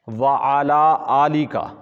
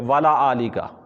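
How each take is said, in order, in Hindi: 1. Wa और ala अलग-अलग शब्दों की तरह बोले जाते हैं। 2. Wa और ala एक साथ मिलाकर wala की तरह बोले जाते हैं।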